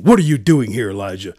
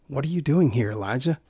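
First: Loud, sharp demand on "What are you doing here"; harsh scolding. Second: Soft, caring question, trailing quiet on "Elijah"; gentle concern. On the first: God rebuking Elijah the way the preacher rejects, loud. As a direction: bark the question like an angry father. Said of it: "I don't imagine him saying". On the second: God gently asking his child Elijah, soft and caring. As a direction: ask it tenderly like a worried parent. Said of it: "out of gentle concern for his child". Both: Acted.

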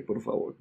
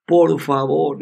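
First: Begging in a whisper; whispered plea. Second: Said in the usual way. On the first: Retold or imitated. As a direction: breathe the plea out with no voice. Le dije. (súplica susurrada)

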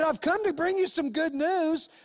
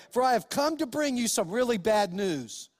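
First: Higher, lifted angel proclaiming; the angel brings the shepherds joyful news; joyful angel announcement. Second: Said in the usual way. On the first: Acted. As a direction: announce the good news with real joy. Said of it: "He said". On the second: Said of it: "It's not what he said".

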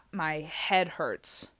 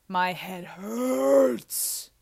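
First: Said in the usual way. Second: "hurts" dragged out long and loud; hammed-up drawn-out complaint; exaggerated whine. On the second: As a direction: groan the word "hurts", stretching it right out.

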